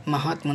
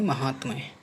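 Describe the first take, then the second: First: महात्म ending "tma", without Y; wrong, Y dropped. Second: महात्म्य ending "tmya"; correct Y ending. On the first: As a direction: say महात्म as "mahaatma". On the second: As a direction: say महात्म्य with Y after M. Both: Shown as a demonstration. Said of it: "महात्म नहीं".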